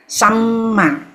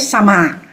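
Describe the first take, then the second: First: The middle m is held with a brief pause. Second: The middle m is short, with no hold. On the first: The speaker calls it right. "we pause at the first one" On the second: The speaker calls it wrong. "don't say sama"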